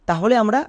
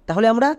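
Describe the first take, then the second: The two takes are said the same way.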